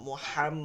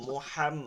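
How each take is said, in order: Both takes have the same delivery.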